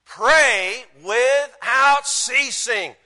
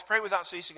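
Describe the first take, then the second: First: Very slow, loud, high preaching; emphatic proclamation. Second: Said in the usual way. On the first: Real, not acted. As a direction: stretch each word out as a command. Preacher proclaims verse as upgrade.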